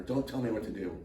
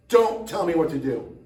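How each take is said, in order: First: Said in the usual way. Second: Louder, higher mock protest; mock defiant outburst. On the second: Host refusing to be told what to do, mock defiant outburst. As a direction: raise your voice in playful defiance.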